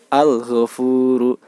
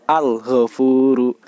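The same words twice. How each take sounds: No difference in how they are said.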